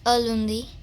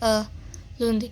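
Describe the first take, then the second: First: The two words run together without a break. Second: There is a break between the two words. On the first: The speaker calls it right. "You actually say it like this, ... You do not give a space while you speak" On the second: The speaker calls it wrong. "you don't say it like this"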